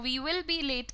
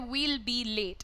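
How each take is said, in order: First: Both words 'we will' are said in full. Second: 'We will' is shortened to one syllable 'we'll'. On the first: "we will be late की जगह" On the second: "आप fluency के लिए बोल सकते हैं we'll be late"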